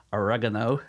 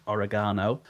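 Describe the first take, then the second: First: "oregano" the American way, stress on the second syllable; American pronunciation. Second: Said in the usual way. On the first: Shown as a demonstration. British speaker showing listeners the American word, American-style "oregano". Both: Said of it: "if you're American".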